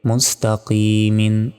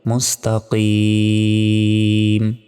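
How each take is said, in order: First: The word ends with a vowel and n. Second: The word ends on a stopped consonant. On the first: The recitation continues without stopping. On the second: The reciter stops at this word.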